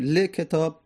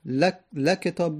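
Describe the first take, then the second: First: ل کتاب said li-ketab, with a short i on the ل; lam with kasra. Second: ل کتاب said la-ketab, with a short a on the ل; lam with fatha. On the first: Teacher showing students ل کتاب with kasra, li-ketab. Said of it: "اگر ما کسره بدیم". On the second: Teacher showing students ل کتاب with fatha, la-ketab. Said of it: "اگر فتحه بدیم". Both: Shown as a demonstration.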